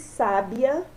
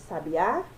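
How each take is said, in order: First: The stress is on the first syllable. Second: The stress is on the last syllable. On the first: "proparoxítona" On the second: "oxítona"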